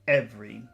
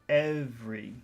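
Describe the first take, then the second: First: The word is said plainly without extra emphasis. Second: The word is said with strong, drawn-out emphasis. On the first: "Normal every" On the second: "Focus every"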